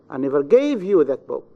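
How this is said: The stress falls on the word gave. "In the third, in the verb gave"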